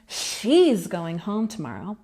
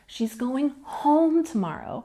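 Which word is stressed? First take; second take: she; home. First: The word she carries the main stress. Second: The word home carries the main stress. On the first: Attention is drawn to which person is going. "if I put the stress on she" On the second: Attention is drawn to where she is going. "We're putting the stress on home"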